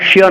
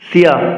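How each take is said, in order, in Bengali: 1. এটি 'sh' ধ্বনি দিয়ে শুরু হয়। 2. এটি 's' ধ্বনি দিয়ে শুরু হয়। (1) "শিয়া নয়" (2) "সিয়া বলতে হবে। দন্তস্বর ক্যাসের মতো"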